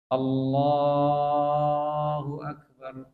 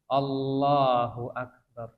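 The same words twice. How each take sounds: First: The 'la' vowel in Allah is drawn out. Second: No vowel is lengthened beyond two beats. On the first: "Memanjangkan Allah itu enggak merubah arti" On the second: "Ini dua huruf, dua ketukan"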